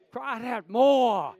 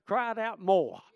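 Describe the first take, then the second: First: Slow preacher's shout; shouted slowly. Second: Said in the usual way. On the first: Shown as a demonstration. Preacher to congregation, slow emphatic shout.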